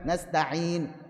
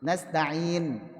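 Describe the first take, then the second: The two takes are said the same way.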